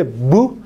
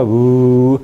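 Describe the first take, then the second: First: Short "bu" with lips fully closed; brief, stopped b in "bu"; plosive b. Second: Drawn-out "bu" with lips only partly closed; fricative b. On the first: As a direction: pop "bu" from a total lip closure. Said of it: "hay un cierre total de los labios". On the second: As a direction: let the air leak through "bu". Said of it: "no hay un cierre par-, total". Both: Shown as a demonstration.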